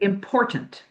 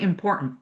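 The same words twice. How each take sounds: First: The T in the middle is clearly pronounced. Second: The middle T becomes a glottal stop. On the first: The speaker calls it right. "want to say" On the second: The speaker calls it wrong. "You don't want to say important. ... that glottal stop"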